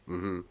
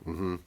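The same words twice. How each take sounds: The two takes are said the same way.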